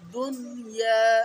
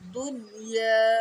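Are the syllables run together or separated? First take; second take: separated; separated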